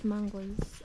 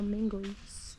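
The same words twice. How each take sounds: First: "mangoes" with an open "mang" first syllable; pronunciation variant. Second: "mangoes" with an "e" in the first syllable; pronunciation variant. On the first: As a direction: say "mangoes" as MAHN-goes. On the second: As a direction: say "mangoes" as MENG-goes. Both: Shown as a demonstration. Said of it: "Is it mangoes or mangoes".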